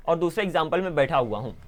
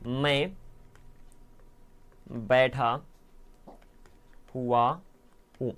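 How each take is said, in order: First: Said in the usual way. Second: Softer, each word set apart by long pauses; slow word by word. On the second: Shown as a demonstration. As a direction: lay out the sentence slowly for the class. (धीरे धीरे, हर शब्द अलग करके) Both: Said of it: "यहाँ पर ध्यान सुनो".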